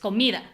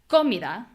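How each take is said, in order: First: The stress is on the middle syllable. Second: The stress is not on the middle syllable. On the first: The speaker calls it right. "me is the strong syllable" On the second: The speaker calls it wrong. "it's not comida"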